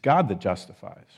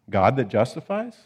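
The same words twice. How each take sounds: First: It is said as a plain statement. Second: It is said as a question. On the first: God is the one who declares us righteous. "just as it's written in the King James" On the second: It asks whether God would be the one to accuse. "You could also read it as a question"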